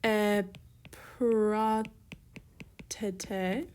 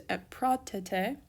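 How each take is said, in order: First: Very slow "Epratete" with long gaps between syllables. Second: Said in the usual way. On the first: Shown as a demonstration. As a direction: dictate it piece by piece, as if writing along. Writing out the form slowly.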